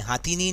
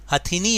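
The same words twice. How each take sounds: First: हाथीनी with a long first vowel, "haa-thee-nee"; mistaken pronunciation. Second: हथिनी with short first vowels, "ha-thi-nee"; correct pronunciation. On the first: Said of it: "हाथीनी नहीं होता". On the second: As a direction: say हथिनी with a short "ha", not "haa". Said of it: "हथिनी होता है". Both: Shown as a demonstration.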